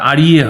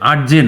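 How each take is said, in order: First: The word is pronounced in Sanskrit style. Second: The word is pronounced in Bengali style. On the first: The speaker calls it right. "এটা কিন্তু উচ্চারণটা আড়িয়ে হয়" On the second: The speaker calls it wrong. "আর্যে না। বাংলায় আর্যে বলতে পারি"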